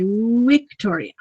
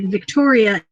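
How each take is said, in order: First: The word begins with a W sound. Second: The word begins with a V sound. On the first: "pretend there's a U at the beginning instead of a V" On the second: "as we would say Victoria in English"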